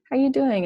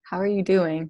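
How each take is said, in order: First: It is said quickly and casually, in passing. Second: It is said slowly and sincerely, with real interest.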